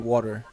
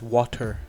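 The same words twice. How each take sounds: First: The middle consonant sounds like a soft D. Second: The middle consonant sounds like a clear T. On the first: This is the speaker's own way of saying it. "I say it with like a D" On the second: This is how the speaker's wife says it. "but she says water"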